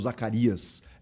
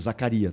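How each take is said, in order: First: The name ends with an s sound. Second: The name ends in a vowel, no s. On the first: The speaker calls it wrong. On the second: The speaker calls it right.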